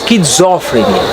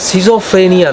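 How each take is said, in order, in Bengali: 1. শব্দটি sk ধ্বনি দিয়ে শুরু হয়। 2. শব্দটি সাধারণ s ধ্বনি দিয়ে শুরু হয়। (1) "উচ্চারণটা হচ্ছে স্কিজফ্রেনিয়া" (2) "উচ্চারণটা না সিজোফ্রেনিয়া নয়"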